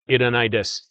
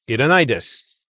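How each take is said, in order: First: The phrase is said on a flat pitch. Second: The phrase is said with a pitch accent. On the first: The speaker calls it wrong. "I'm just going to make it flat" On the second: The speaker calls it right. "I'm going to attempt it"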